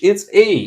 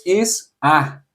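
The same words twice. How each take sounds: First: A said as English ay; English letter A. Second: A said as Portuguese open ah; Portuguese letter A. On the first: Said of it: "In English". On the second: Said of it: "In Portuguese". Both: Shown as a demonstration.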